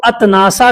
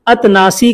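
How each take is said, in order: First: अतनासा with a final long aa; aa-ending variant. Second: अतनासी with a final long ee; ee-ending variant. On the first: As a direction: end अतनासा on an open aa. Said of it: "इसी को कितने लोग अतनासा कहते हैं". (अंत में आ वाला अतनासा) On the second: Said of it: "अतनासी कहते हैं". (अंत में ई वाला अतनासी) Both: Shown as a demonstration.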